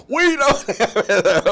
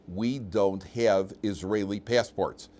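First: High, drawn-out mock yell; very loud. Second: Slow, deliberate retold statement; wife's measured reply. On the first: Wife yelling about missing passports down the phone, very loud. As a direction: imitate her bellowing it, stretched out and much higher. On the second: Wife back on the phone to husband, slow and deliberate. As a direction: imitate her spelling it out word by word, slowly. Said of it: "and she says".

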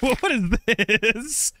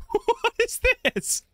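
First: Drawn-out, wondering what is this; slow bemused query; slow puzzled question. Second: Much higher, slow, through a laugh; high giggly mock question; squeaky laughing repeat. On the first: Real, not acted. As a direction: stretch it out, baffled. Puzzled at odd game item. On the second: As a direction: squeak it out in amused disbelief.

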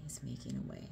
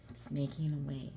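First: Breathy whispered repeat, much softer; hushed awed whisper. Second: Said in the usual way. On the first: Real, not acted. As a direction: drop to a reverent whisper.

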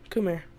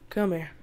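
Both takes have the same delivery.

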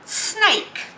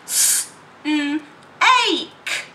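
First: Said in the usual way. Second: "S-, n-, ache" spoken as separate sounds; segmented sounds. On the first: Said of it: "that's the word snake". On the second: Shown as a demonstration. Teacher modelling sounds for pupils. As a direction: break snake into s, n, ache. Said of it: "They can't hear that that's the word snake".

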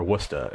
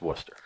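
First: "Worcester" as Boston "WUS-tah"; Boston local's "Wustah" for "Worcester"; Boston accent. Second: "Worcester" as short "WUS-ter", r sounded; "Worcester" in two short syllables, "WUS-ter"; plain correct pronunciation. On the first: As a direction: drop the r in "Worcester", Boston style. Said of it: "if you've got the Bo-, Boston accent". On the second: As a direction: say "Worcester" simply, softer, as "Wuster". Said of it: "It's just Worcester". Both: Shown as a demonstration.

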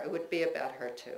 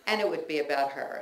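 First: Said in the usual way. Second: Fast, laughing through the words. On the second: Real, not acted. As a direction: chuckle it out quickly, a bit louder. Laughing take of repeated phrase.

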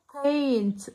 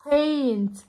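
Both takes have the same delivery.

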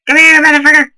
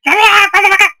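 First: Loud angry shout. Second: High, loud yell; high angry shout. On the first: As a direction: yell it at the enemy. Chasing enemy, louder. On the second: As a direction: scream it high at the enemy. Chasing enemy, higher. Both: Real, not acted.

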